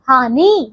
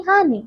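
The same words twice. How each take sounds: First: हानि with drawn-out nee; wrong long vowel. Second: हानि with short final i; short final vowel. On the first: Teacher showing wrong हानि, long final ee. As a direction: stretch the end of हानि. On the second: Teacher correcting pupils, हानि with short i. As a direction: end हानि quickly on ni. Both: Shown as a demonstration. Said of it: "हानि नहीं हानि".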